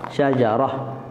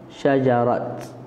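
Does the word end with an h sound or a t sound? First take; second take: h sound; t sound. First: The word ends with an h sound. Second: The word ends with a t sound. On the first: This is the more eloquent way to pause on it. "kita waqafkan di atas ha" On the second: This is a pausal form some scholars also allow. "sebahagian kata boleh juga sebut"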